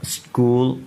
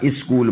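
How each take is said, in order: First: स्कूल starting straight on sk; vowelless initial s. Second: स्कूल said "is-kool"; wrong leading vowel. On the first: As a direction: model स्कूल in one syllable. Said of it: "सीन की आवाज़ है". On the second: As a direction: put an "i" before the s of स्कूल. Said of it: "सब बेड़ा गर्क हो गया". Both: Shown as a demonstration.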